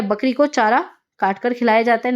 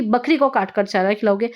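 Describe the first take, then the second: First: "बकरी को चारा" as one group, pause, then "काट कर खिलाया जाता है"; right phrasing. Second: "बकरी को काट कर" run together without a pause; wrong phrasing. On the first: Teacher giving students the sensible word order, phrased with a pause. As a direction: break briefly after "चारा", before "काट कर". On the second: Teacher showing students the absurd reading, run together. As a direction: join "काट कर" straight onto "बकरी को". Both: Shown as a demonstration. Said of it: "ना कि".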